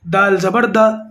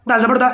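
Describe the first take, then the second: First: It is read calmly and unhurriedly. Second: It is read quickly and hurriedly. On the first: The speaker calls it right. "इत्मीनान से, सही तरीके से" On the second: The speaker calls it wrong. "ऐसे नहीं पढ़ना"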